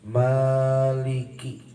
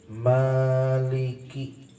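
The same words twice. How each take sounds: No difference in how they are said.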